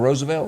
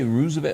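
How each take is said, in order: First: The first syllable has an 'oh' vowel. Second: The first syllable has an 'oo' vowel.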